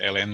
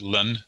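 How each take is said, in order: First: It is said like the name 'Ellen'. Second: It is not said like the name 'Ellen'. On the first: "I pronounce it ln, like the daytime chat show host" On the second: "Some people pronounce it ln"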